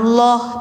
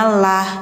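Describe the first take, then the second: First: The L is heavy, with a darker o vowel. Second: The L is light, with a clear a vowel. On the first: The speaker calls it wrong. "bacanya jangan loh" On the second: The speaker calls it right. "tapi bacanya lah"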